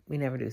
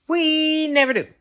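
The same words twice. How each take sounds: First: Lower, softer throwaway repeat; quiet aside. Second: Higher, louder, pressed complaint; emphatic. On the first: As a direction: drop it under your breath. Repeated complaint, muttered. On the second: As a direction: lean into it, pitched up. Repeated complaint. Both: Real, not acted.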